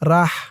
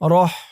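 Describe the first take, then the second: First: The vowel sounds like a long 'ah'. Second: The vowel sounds like a rounded 'oh'. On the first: The speaker calls it wrong. "এখানে দেওয়া আছে রাহ" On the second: The speaker calls it right. "আরবিতে উচ্চারণ করতে হবে রহ"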